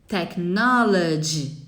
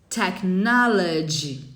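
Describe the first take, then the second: Both takes have the same delivery.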